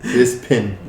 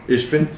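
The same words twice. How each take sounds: First: "Ispin" with a clear s and p; corrected name. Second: "Ishbin" with sh and b, questioning; mispronounced name. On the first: Player repeats the corrected name, "Ispin" with s-p. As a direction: say "Ispin", ending on pin. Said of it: "It's Pin". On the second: Player guesses at the name, "Ishbin" with sh. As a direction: say "Ishbin" with a rising, unsure end. Tries the name, gets corrected. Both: Real, not acted.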